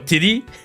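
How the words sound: The word is said with a French accent. The speaker calls it wrong. "my French accent pick up this word"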